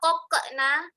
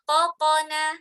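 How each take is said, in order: First: The qaf sounds thin and light. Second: The qaf sounds thick and heavy. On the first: The speaker calls it wrong. "jangan dibaca kokena" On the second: The speaker calls it right. "tapi baca"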